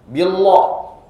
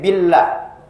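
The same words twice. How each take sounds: First: The l sound is said thick and heavy. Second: The l sound is said thin and light. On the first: The speaker calls it wrong. "Jangan sampai" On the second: The speaker calls it right. "lafzul jalalah di sana itu tipis"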